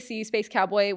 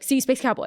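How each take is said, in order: First: The words are said separately at normal speed. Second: The words are run together quickly without gaps.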